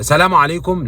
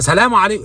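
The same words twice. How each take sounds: First: The greeting is said at a louder volume. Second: The greeting is shouted very loudly. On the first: "بعدين كده تعلي" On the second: "لا انت بتزعق ليه؟"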